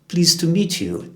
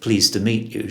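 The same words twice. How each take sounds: First: The vowels sound squashed and stretched out. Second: The vowels sound plain and ordinary. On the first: It imitates a royal way of speaking. "Everything is squashed and sounds very strange" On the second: It is the ordinary way of saying it. "instead of"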